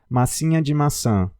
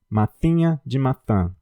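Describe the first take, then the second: First: The s sounds are made normally. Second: The s sounds are made with tongue between teeth.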